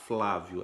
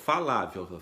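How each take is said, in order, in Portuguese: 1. O F e o L ficam juntos, sem vogal. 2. Uma vogal separa o F e o L. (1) "Agora fala rápido" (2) "Você vai falar Falávio"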